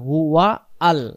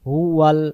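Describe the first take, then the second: First: The two words are kept apart as two. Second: The two words are run together as one. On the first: The speaker calls it right. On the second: The speaker calls it wrong.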